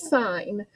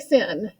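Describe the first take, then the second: First: It is said with a long 'eye', like 'sign'. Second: It is said with a short 'i', like 'sin'. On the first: The speaker calls it right. "It is sine" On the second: The speaker calls it wrong. "Do not say sin"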